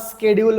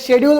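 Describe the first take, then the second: First: The word begins with an sk sound. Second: The word begins with an sh sound. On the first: This is the modern way of saying it. "आता स्केड्यूल म्हणतो" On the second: This is the older way of saying it. "याला आपण पहिले शेड्यूल म्हणायचो"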